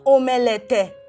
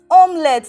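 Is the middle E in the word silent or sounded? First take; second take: sounded; silent. First: The middle E is sounded, three syllables. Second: The middle E is silent, two syllables. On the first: The speaker calls it wrong. "not omelette" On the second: The speaker calls it right. "it's pronounced as omelette, This E is silent"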